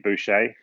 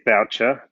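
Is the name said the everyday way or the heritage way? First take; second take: heritage; everyday. First: The name has its original heritage pronunciation. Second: The name has its usual everyday pronunciation. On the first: This is how the name was said in the family's heritage. "pronounced correctly, it's probably Boucher, to be honest, uh, back in my history and heritage" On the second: This is how the name is normally said. "it's said Boucher"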